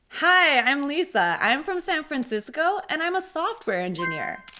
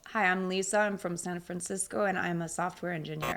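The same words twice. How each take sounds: First: It is said with energy and lively intonation. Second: It is said in a flat, low-energy voice. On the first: The speaker sounds friendly. The speaker calls it right. "with energy and using intonation" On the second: The speaker sounds disinterested or unfriendly. The speaker calls it wrong. "speaking in a flat voice"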